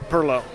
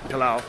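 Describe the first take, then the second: First: The name is said the way locals say it. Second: The name is said the way outsiders say it. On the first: The speaker is a local. The speaker calls it right. "Perlo, or most of us who live outside of St. Augustine would" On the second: The speaker is an outsider. The speaker calls it wrong. "most of us who live outside of St. Augustine would probably pronounce it Pilau"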